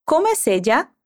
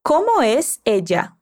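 First: Como es ella? run together, rising on es; linked question. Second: Como es ella? spoken slowly, words apart; slow model question. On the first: Teacher linking the words for the student. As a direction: connect Como es ella? into one flow. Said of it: "Conectando as palavras". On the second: Teacher slowly modelling the question. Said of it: "Assim, repete". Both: Shown as a demonstration.

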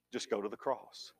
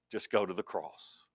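First: Barely above a breath, lower and quieter; softer still. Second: Hushed, heartfelt; soft, quiet plea. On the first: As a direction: let it fall away, tender. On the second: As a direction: drop the voice low and soft. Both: Real, not acted. Repeated softly for emphasis.

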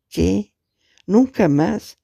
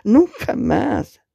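First: Higher, disbelieving rise on nunca; a caller repeating what she just heard, in shock; stunned question. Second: High, slow cry of ¡Nunca más! stretched out; a woman crying out into the phone as if hit; anguished scream. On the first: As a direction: echo the words back, not believing them. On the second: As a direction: scream it as if being struck. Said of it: "Grita como si la golpearan". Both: Acted.

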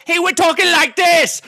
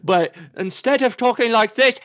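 First: This line in a high, hammed-up mock British accent. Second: Said in the usual way. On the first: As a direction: parody a coworker's fake British accent. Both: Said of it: "trying to talk like a British guy".

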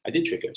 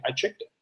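First: Did pressed and higher; did trick her, owning up; stress on did. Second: Said in the usual way. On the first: Real, not acted. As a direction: lean on did to admit it.

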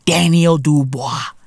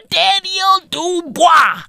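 First: Said in the usual way. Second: High, slow, shouted Frenchified Daniel Dubois; mock French pronunciation. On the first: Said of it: "That's French". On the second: Shown as a demonstration. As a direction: stretch Daniel Dubois out, much higher, like an over-the-top French announcer. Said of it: "That's fucking French".

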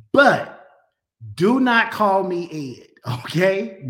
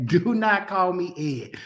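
First: Louder, punching NOT in "do not call me Ed"; firm warning. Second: Said in the usual way. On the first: Real, not acted. Pastor warning his viewers, firm and loud. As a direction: lay down the law with a grin. Jokingly laying down a name rule.

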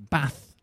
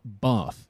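First: Bath with a short flat "a" as in cat. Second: Bath with a long "ah" as in father. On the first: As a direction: say "Bath" with the short northern vowel. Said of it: "not Bath, right?". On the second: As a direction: stretch "Bath" to a southern "Bahth". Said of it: "Okay, it's Bath, not". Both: Shown as a demonstration.

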